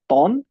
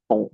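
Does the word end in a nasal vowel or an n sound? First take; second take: n sound; nasal vowel. First: The word ends with a clear n consonant. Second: The word ends in a nasal vowel. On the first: The speaker calls it wrong. "It's not टॉन" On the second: The speaker calls it right. "It's टो"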